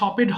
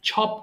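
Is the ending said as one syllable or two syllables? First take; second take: two syllables; one syllable. First: The ending is said as an extra syllable. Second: The word ends in a single syllable. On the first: The speaker calls it wrong. "এটা আবার ছপেড হবে না" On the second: The speaker calls it right. "ছপড হবে"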